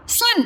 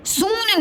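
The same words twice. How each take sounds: First: सुन with a brief u, pitched high; quick short u in सुन; short vowel. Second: सून with a long oo sliding down; wrong long vowel. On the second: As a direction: stretch सून into sooon. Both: Shown as a demonstration. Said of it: "सून नहीं".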